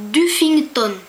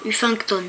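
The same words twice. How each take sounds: First: Duffington said with a D sound at the start; first guess at the name. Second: Uffington said starting on the U, no D; corrected name. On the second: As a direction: drop the D and say Uffington. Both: Shown as a demonstration. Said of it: "je sais pas comment on dit".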